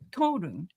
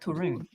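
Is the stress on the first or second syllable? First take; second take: first; second. First: The stress is on the first syllable. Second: The stress is on the second syllable. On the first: The speaker calls it right. "you put the emphasis on the first syllable" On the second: The speaker calls it wrong.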